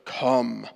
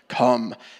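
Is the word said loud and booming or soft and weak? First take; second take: soft; loud. First: The word is said softly, without booming force. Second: The word is said loudly, with a booming force. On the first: The speaker calls it wrong. "I didn't do that well at all" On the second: The speaker calls it right. "I don't have a very thundering voice this morning"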